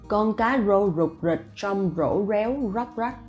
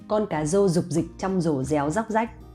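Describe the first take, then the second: First: Each r is pronounced as a rolled r. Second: Each r is pronounced like an English z. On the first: This is how people in some other provinces say it. "But maybe other provinces would say" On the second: This is how people in Hanoi say it. "the R sound I pronounce as Z sound in English"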